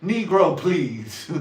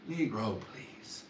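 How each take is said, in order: First: Loud, high, laughing scoff; mock dismissal. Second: Muttered dismissal. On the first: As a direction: blurt it out as a hammed-up dismissal. Mock dismissal, then repeated quietly. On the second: Acted. Repeating the scoff to himself, muttered dismissal. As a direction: scoff fading into a whisper.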